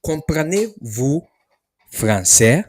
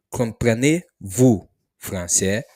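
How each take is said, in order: First: Slow, louder Comprenez-vous français; slow model question. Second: Said in the usual way. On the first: Shown as a demonstration. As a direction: spell it out slowly for learners. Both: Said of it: "This is how you ask the question".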